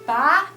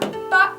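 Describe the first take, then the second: First: It is said with the second tone. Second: It is said with the fourth tone. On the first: It means to pull something. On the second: It means dad.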